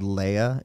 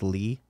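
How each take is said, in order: First: The name has two syllables, ending in 'uh'. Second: The name has one syllable, with a silent ending. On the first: The speaker calls it wrong. "I've been calling you since I've been following you. Brad Leia, is the A silent?" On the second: The speaker calls it right. "I learned that it was Lee"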